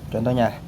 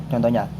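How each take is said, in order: The two takes are said the same way.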